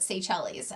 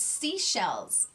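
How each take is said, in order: First: The first syllable sounds like 'say'. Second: The first syllable sounds like 'see'. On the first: The speaker calls it wrong. "I called it Seychelles" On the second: The speaker calls it right. "no, it's seashells"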